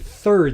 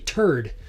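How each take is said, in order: First: It begins with a soft th sound. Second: It begins with a hard t sound. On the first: "you don't say third" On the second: "they say turd"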